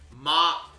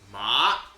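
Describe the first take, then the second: First: The pitch stays high and level. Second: The pitch rises from low to high. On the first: It means mother. "ma is high" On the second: It means numbness. "but that's going up"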